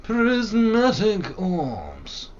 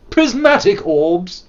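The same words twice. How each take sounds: First: Slow high drawn-out announcer chant; slow mock-epic chant; dramatic intonation. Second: Slow, high, louder mock-epic chant; slow drawn-out grand incantation; dramatic intonation. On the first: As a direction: savour each word like a grand incantation. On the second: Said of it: "Sorry. It was unnecessary".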